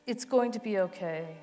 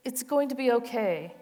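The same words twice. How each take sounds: The two takes are said the same way.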